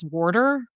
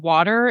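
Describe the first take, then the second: First: "water" as "worter"; regional WATER. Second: "water" with an open first vowel and no R in it; standard WATER. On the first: Retold or imitated. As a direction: regional "water" with a closed, R-like first vowel. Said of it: "it's water". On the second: Shown as a demonstration. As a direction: General American "water". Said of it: "instead of water".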